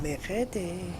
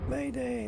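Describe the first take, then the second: First: It is said with a French pronunciation. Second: It is said with an English pronunciation. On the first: "That's the French Mayday" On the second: "we call it Mayday like it's the first of May"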